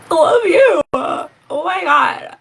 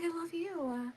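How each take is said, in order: First: Loud, high-pitched cry of love; gushing outburst. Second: Very soft, high little voice; tiny gushing squeal. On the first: Mother overcome by her five-year-old son's words, gushing loudly. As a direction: shout it high, drawing out the end. Acts out gushing reply to son. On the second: Mother re-enacting her love for her son, in a tiny high squeal. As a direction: squeak it out tenderly, barely audible. Replays the gushing reply, now small. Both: Retold or imitated.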